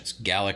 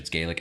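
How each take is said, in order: First: It is said the Scottish way. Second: It is said the Irish way. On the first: It refers to the Scottish language. "when it's Scottish" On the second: It refers to the Irish language. "when it's Irish"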